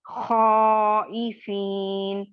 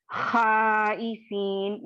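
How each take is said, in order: First: खौइफीन slowed with a full, rounded खौ; the correct heavy version of खौइफीन; heavy reading. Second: खाइफीन said with a thin, light खा; the incorrect light version of खाइफीन; wrong light reading. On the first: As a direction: give खौइफीन its thick heavy खौ. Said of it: "खौ कहेंगे". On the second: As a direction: show the mistake, a flat खाइफीन. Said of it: "खाइफीन नहीं पढ़ेंगे". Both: Shown as a demonstration.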